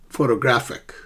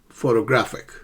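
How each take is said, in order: Both takes have the same delivery.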